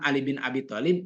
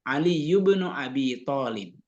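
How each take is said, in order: First: The middle word is the short form bin. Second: The middle word is the full form ibnu. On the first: This is the everyday form that people still understand. "kita bilang Ali bin Abi Thalib ya mereka ngerti" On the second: This is exactly as in the Arabic sentence. "persis seperti seperti kalimat bahasa Arabnya"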